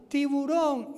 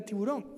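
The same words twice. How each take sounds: First: High, raised warning call; imitated shout. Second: Said in the usual way. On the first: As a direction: shout it like a warning across water. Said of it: "Y nos gritaban". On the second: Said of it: "le empecé a gritar".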